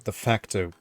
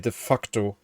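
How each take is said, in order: First: It is pronounced the English way. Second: It is pronounced the German way. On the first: The speaker calls it right. "Let's say de facto" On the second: The speaker calls it wrong. "that's how you pronounce it in German, but that's naughty. So let's not say de facto"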